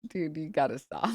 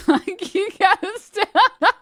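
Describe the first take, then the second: First: Said in the usual way. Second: High, loud, laughing "you gotta stop"; laughing plea. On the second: Real, not acted. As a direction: crack up while begging him to stop. Repeat, much higher and louder laughing.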